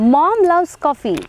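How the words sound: The stress is on mom.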